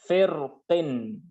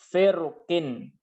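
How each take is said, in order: Both takes have the same delivery.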